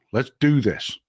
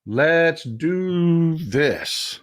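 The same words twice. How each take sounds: First: Said in the usual way. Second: "Let's do this" stretched very slow, each word weighted; slow, drawn out. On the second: Shown as a demonstration. Host rallying his viewers to fight, very slow and drawn out.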